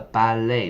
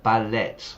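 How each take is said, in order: First: It is said with native English pronunciation. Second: It is said with a Spanish-learner pronunciation. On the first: The speaker calls it right. "The ballet" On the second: The speaker calls it wrong. "not ballet. Spanish students in particular"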